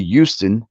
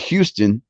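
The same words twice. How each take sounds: First: The word starts without an H sound. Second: The word starts with a hard H sound. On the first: The speaker calls it right. "I do say Houston" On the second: The speaker calls it wrong. "not Houston. I don't give out a hard H"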